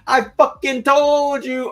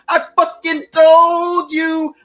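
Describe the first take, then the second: First: It is said at a normal, quieter volume. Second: It is yelled loudly.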